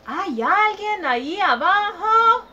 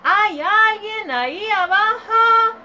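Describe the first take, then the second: First: Higher, louder call into the hole; child calling down a hole. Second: Much higher, louder, slow shout; child yelling harder down the hole. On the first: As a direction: shout down into the dark hole. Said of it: "y gritó". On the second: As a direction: yell it down the hole with all your might. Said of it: "Gritó con más fuerza". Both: Acted.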